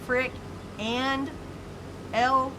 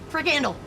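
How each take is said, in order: First: The name is split into separate parts. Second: The name is run together as one word. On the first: "is it frick and L special?" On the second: "Or is it frickandle?"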